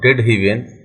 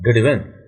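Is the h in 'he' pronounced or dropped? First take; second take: pronounced; dropped. First: The h sound in 'he' is pronounced. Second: The h sound in 'he' is dropped. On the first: The speaker calls it wrong. "मेरी जुबान में थोड़ी सी fluency नहीं है" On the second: The speaker calls it right. "How smooth it goes"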